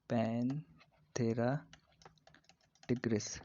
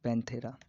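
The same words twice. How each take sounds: First: Panthera in long, separated parts; slow dictation. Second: Said in the usual way. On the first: Shown as a demonstration. Teacher repeats tiger's genus for students, slowly split. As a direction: pause within Panthera, stretching it.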